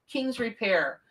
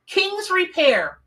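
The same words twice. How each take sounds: First: Said in the usual way. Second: High, slow, drawn-out awe; amazed. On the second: Real, not acted. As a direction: savour each word in disbelief over "King's Repair". Rereads the truck name in awe.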